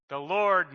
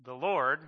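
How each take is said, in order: First: "the Lord" said louder, weight on "Lord"; stress on Lord. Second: Said in the usual way. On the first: Shown as a demonstration. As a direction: hit "Lord" like a personal name. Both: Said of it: "to kind of have in your head".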